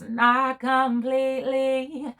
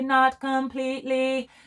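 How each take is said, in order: First: It is said with loose, relaxed neo soul diphthongs. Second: It is said in a strict English accent. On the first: "She's giving us" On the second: "In the English accent, I may say"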